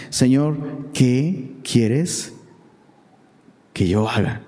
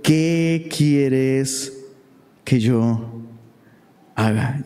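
First: Slow, low, hushed trembling plea; a fearful man asking his Lord very slowly. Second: Lower, drawn-out fearful question; a hint of a frightened plea; trembling and fearful. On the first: Acted. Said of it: "Él temblando y temeroso dijo". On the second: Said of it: "temblando Saulo y temeroso dijo".

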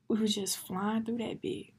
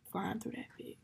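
First: Said in the usual way. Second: Quieter, to yourself; soft echo. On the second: Real, not acted. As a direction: murmur it back softly. Quiet echo of previous line.

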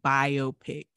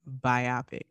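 First: Biopic as BYE-oh-pick; biopic as bio plus pick; recent pronunciation. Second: Biopic as bye-OP-ic; former pronunciation. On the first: Co-host on recent years' change, newer pronunciation BYE-oh-pick. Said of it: "only started saying biopic". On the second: Co-host insisting on how it was, former pronunciation bye-OP-ic. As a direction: stress the middle of biopic, bye-OP-ic. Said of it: "It used to be pronounced". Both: Shown as a demonstration.

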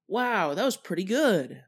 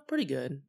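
First: Higher, genuinely impressed pretty good; impressed, positive. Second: Lukewarm, underwhelmed pretty good; unimpressed, so-so. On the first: Showing the positive way to say pretty good, impressed. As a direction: say pretty good like it beat expectations. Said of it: "the first way to interpret it is the positive way". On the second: Showing the negative way to say pretty good, underwhelmed. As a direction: say pretty good like it could have been better. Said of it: "the second way to interpret it is, of course, the sort of negative". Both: Shown as a demonstration.

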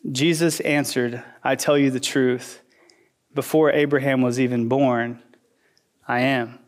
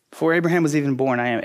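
First: Low, hushed scripture reading; solemn reading. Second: Rattled off quickly; quick recap. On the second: Pastor quickly repeating the verse to the congregation, brisk. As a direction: toss the line off fast as an aside. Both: Shown as a demonstration. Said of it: "verse fifty-eight happened".

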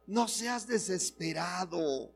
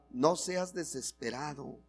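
First: Softly, a little higher, to your neighbour. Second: Softly to your neighbour. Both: Shown as a demonstration. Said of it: "dile al que está a tu lado".

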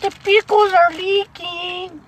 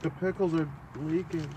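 First: Very high, drawn-out silly voice; 우스꽝스러운 고음. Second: Soft, small-voiced remark; 조용한 말투. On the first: Pretend. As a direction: squeal it slowly in falsetto. Echoes the line in silly voice. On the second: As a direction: say it softly, slightly raised pitch. Quiet take, then repeated high.

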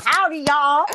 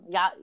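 First: Howdy, y'all with the full L, louder and higher; y'all sung out Southern-style with its L; playful Southern twang. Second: Y'all said as "ya", no L at the end; Y'all clipped to a short "ya"; New York ya. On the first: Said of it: "It's not". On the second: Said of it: "there's no L". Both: Shown as a demonstration.

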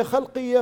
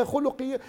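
First: خلقية said as khalqiya with open a vowels; first pronunciation. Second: خلقية said as khuluqiya with u vowels; corrected pronunciation. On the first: Speaker tries the word first, خلقية as khalqiya. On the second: Speaker corrects himself, خلقية as khuluqiya. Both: Shown as a demonstration.

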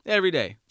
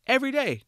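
First: "Every day." louder, dropping to a firm fall. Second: EVERY DAY? leaps way up, louder, in disbelief; exasperated every day. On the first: Host answers own question, firm and emphatic. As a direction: settle it: "Every day." flat-out and final. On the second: Host asks why anyone avoids real answers, incredulous high. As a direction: throw "every day?" high and loud like it's obvious. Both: Real, not acted.

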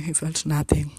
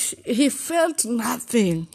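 First: Said in the usual way. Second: High, slow, pained "he felt nothing"; pitched-up lament; high anguished line. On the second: Retold or imitated. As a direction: stretch it out high and hurt. First take, high and slow.

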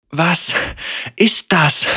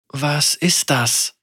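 First: High, breathless gasped question; gasping in fear. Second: Slow, uneasy puzzled question; confused and fearful. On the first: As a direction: gasp it out in shock. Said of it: "Senna keuchte". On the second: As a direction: ask warily, afraid of the answer. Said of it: "fragte Lucian verwirrt und ängstlich". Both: A narrator's reading.

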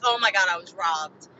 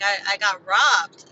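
First: Mock dramatic. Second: Said in the usual way. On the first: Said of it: "saying that sounds so dramatic". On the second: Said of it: "I was like".

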